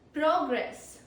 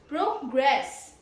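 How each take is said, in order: First: The stress is on the first syllable. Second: The stress is on the second syllable. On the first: It is a noun meaning forward movement. "This is the first syllable stress, so it's a noun" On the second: It is a verb meaning to move forward. "Second syllable stress means the verb progress"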